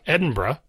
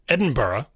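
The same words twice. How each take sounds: First: The ending shrinks to one syllable, bruh. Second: The ending is two syllables, burra. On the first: The speaker is in more of a hurry. "Now the Burra becomes Bruh" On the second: The speaker is in no particular hurry. "where it's B-U-H-R-U-H, Burra"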